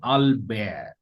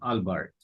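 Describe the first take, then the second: First: It is pronounced with French sounds. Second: It is pronounced with English sounds. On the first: The speaker calls it right. "In French language, the sound of this word is Albert" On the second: The speaker calls it wrong. "not Albert"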